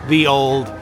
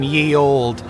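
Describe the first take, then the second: First: The first word starts with a th sound. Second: The first word starts with a y sound. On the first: "the Y E is actually pronounced the" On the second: "It's more fun saying Ye Old"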